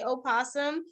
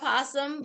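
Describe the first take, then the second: First: The word begins with an extra vowel sound. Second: The word begins directly with a p sound. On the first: "there is an O in front of possum" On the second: "You can say opossum or possum, but it's the same"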